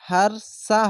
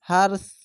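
First: The word ends with a short vowel. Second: The word ends on the bare consonant. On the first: The speaker calls it wrong. "এরকম হারসা হবে না" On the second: The speaker calls it right.

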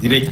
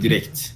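First: The word ends without a final t sound. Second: The word ends with a clear final t sound. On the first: The speaker calls it wrong. "Direkt değildir arkadaşlar" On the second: The speaker calls it right. "Sonunda T var"

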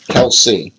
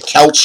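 First: The name ends with a 'see' sound. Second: The name ends with a 'ch' sound. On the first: The speaker calls it right. "but it's Kelsey. That's how you pronounce it" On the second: The speaker calls it wrong. "I always say Kelch or something"

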